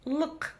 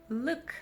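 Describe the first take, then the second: First: "лк" with a hard l, back ы and throaty k; isolated hard "лк", uvular final k; hard ending. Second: "лк" with a soft front vowel and light k; isolated soft "лк", plain front k; soft ending. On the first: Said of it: "окончание лк твёрдое". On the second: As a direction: say "лк" softened, forward in the mouth. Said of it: "окончание мягкое". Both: Shown as a demonstration.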